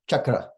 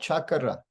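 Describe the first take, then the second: First: The word is said with only two syllables. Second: The word sounds like it has three syllables. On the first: The speaker calls it right. "Two, two syllables only" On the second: The speaker calls it wrong. "it can almost sound like there's an additional syllable"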